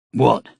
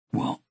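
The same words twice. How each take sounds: First: Growled. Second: Gentler. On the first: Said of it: "he growled". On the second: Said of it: "he repeated in a gentler tone". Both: A narrator's reading.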